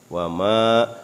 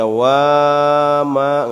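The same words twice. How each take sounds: First: The vowel of the second syllable is long. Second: The vowel of the first syllable is long. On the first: The speaker calls it right. "maknya dibaca panjang" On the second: The speaker calls it wrong. "nggak boleh dibaca wama"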